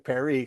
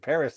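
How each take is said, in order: First: The word ends without an s sound. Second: The word ends with an s sound. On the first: This is how it was said in England. "They say Perry sometimes there" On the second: This is how the speaker's own people say it. "instead of saying Paris like we do"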